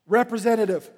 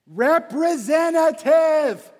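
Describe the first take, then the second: First: Said in the usual way. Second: Slow, high, very loud shout; exasperated shout. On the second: Acted. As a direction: yell it syllable by syllable at the phone menu. Repeats it at phone system.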